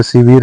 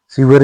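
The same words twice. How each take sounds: First: शिविर with i in both syllables; correct second i. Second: शिविर with a short a before r; wrong short a. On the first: Teacher giving learners the correction, शिविर as si-vir. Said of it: "शिविर नहीं होता". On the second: Teacher showing learners the mistake, शिविर as si-var. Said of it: "शिविर होता है". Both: Shown as a demonstration.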